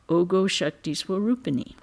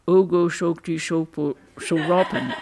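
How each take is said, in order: First: The vowels are clear, as in Sanskrit pronunciation. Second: The vowels turn to o, as in Bengali pronunciation. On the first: "might be transliterated as" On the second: "but which sounded to me as"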